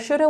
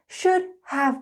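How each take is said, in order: First: Have is reduced to a quick uh sound. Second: Have is pronounced clearly as a full word. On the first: "when we're speaking quickly, we like to smush things together" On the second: "when you learn something um, in a lesson, it's very clear"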